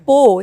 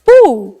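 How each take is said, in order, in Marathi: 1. हा अक्षर 'o' स्वराने म्हटला जातो. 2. हा अक्षर 'oo' स्वराने म्हटला जातो. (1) "इट्स नॉट पो" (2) "इट्स पू"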